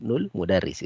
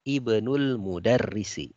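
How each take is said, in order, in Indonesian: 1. 'i' awal pada 'ibnul' dihilangkan. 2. 'i' awal pada 'ibnul' dibaca. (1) "karena alif di sini tidak dibaca kalau dia bersambung" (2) "Ini kalau kita baca terputus"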